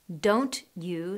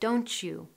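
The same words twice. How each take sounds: First: The t and you are said separately. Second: The t and you merge into ch.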